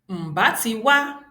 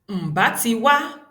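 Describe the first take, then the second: The two takes are said the same way.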